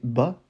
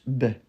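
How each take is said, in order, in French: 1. La voyelle est un «a» ouvert plein. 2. La voyelle est adoucie vers «é». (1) "on va pas prononcer «ba»" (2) "mais un peu plus «bè»"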